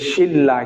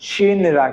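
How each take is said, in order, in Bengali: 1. n টি l হয়ে যায়, তাই দীর্ঘ l শোনা যায়। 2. প্রথম সিলেবলটি n দিয়ে শেষ হয়, তারপর r। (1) "শিন রা না হয়ে কি হবে, হবে যে শিল্লা" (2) "মূলত উচ্চারণ হওয়ার কথা ছিল কি শিন, শিন রা"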